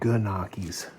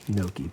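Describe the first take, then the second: First: The word starts with a g sound. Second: The word starts with an n sound. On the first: The speaker calls it wrong. "she always mispronounced it Ganakis" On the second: The speaker calls it right. "this is pronounced Noki"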